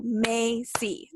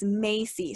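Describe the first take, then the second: First: "Macy" slowly, broken into two separate syllables; split into syllables. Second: Said in the usual way. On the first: Shown as a demonstration. Teacher counts syllables for second grade, "Macy" slowly split in two. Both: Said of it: "that's two syllables".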